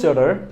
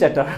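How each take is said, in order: First: It is said with an American accent. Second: It is said with a Bangladeshi accent. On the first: "আমেরিকানরা বলে চ্যাটার" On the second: "আমরা বাংলাদেশে বলি চ্যাটার"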